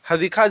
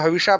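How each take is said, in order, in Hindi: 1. बीच का व्यंजन 'kh' ध्वनि है। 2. बीच का व्यंजन 'sh' ध्वनि है। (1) "हविखा जो है वो शुद्ध उच्चारण है" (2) "हविषा जो है वो वेद के हिसाब से अशुद्ध उच्चारण है"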